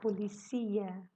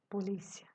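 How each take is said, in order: First: The stress falls where Spanish places it. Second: The stress falls where Portuguese places it.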